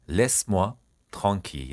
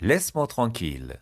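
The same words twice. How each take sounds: First: "Laisse-moi", pause, "tranquille"; word by word. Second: Said in the usual way. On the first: Shown as a demonstration. Teacher modelling a French phrase for learners, piece by piece. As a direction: split the phrase into two measured chunks.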